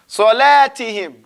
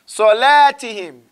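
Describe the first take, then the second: Both takes have the same delivery.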